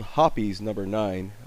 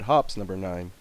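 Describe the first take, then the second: First: The first word has two syllables. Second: The first word has one syllable. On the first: This is the product's actual name. "It's called" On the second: This is what many people commonly call it. "a lot of people call it"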